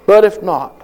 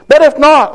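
First: Said in the usual way. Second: "But if not" thrown out high and loud; stressed. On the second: Shown as a demonstration. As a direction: hit "if not" hard.

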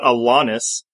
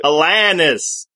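First: [name] with a broad "ah", uh-LAH-nis; wrong [name]. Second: [name] with a flat "a", uh-LAN-is, slow; correct [name]. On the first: Retold or imitated. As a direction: [name] said like a-LAHN-is, nasal "ah". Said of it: "'cause it's not [name]". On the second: Shown as a demonstration.

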